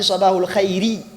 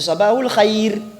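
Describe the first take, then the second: First: The phrase ends with an extra short i vowel. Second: The phrase ends on the bare r consonant. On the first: The speaker calls it wrong. "On n'a pas dit Sabahul khayri" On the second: The speaker calls it right. "On dit Sabahul khayr"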